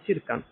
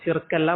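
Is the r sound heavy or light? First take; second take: light; heavy. First: The r is light and thin. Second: The r is heavy and thick. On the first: The speaker calls it right. "പക്ഷെ അറബിയിൽ നിന്നാണ് ഷിർക്കാണ്" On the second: The speaker calls it wrong. "മലയാളത്തിൽ നമ്മൾ ഷിർക്ക് എന്ന് പറയും"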